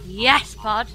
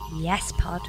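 First: It is said louder than before. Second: It is said at normal, quieter volume.

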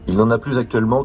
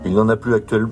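First: A z sound links 'plus' to 'actuellement'. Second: 'Plus' and 'actuellement' are said with no linking sound. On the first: The speaker calls it right. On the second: The speaker calls it wrong.

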